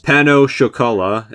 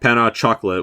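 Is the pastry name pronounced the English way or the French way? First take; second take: French; English. First: The name has a French-style pronunciation. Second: The name has an English-style pronunciation. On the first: The speaker calls it right. "I'm looking at a pronunciation guide for this" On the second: The speaker calls it wrong. "which is how I thought it was pronounced"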